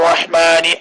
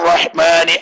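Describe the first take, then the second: The two takes are said the same way.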